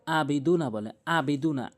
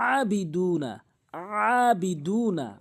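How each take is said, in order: First: "আবিদুনা" starting with a simple hamza a; hamza mistake. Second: "আবিদুনা" starting with mid-throat ayn; correct ayn. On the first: Teacher showing the slip, "আবিদুনা" with hamza. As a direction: say "আবিদুনা" without throat ayn. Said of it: "হামজার উচ্চারণ করে". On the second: Teacher correcting, "আবিদুনা" with throat ayn. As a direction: open "আবিদুনা" on a long throaty a. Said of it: "হলকের মাঝখান থেকে". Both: Shown as a demonstration.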